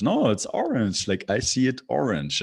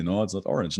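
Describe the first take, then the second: First: Higher-pitched mock-stubborn insistence; playfully adamant, pitch jumping up; insistent contradiction. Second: Said in the usual way. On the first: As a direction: push back as if it were obvious. Acted insistent reply to imagined objector.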